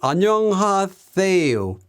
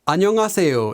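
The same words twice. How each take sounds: First: The s sound is soft, almost like th. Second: The s sound is a clear hissing s. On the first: "almost sound like a T H sound" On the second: "instead of"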